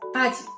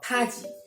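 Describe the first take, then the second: First: The first consonant sounds between b and p. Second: The first consonant sounds like a strong p. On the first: The speaker calls it right. "but it's paji" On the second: The speaker calls it wrong. "or paji"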